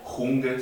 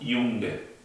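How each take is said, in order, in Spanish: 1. El primer sonido no es y. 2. El primer sonido es y. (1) "no diríamos junge" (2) "se pronuncia como una I"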